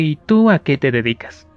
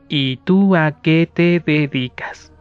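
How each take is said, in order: First: The question is spoken at a normal pace. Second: The question is drawn out very slowly.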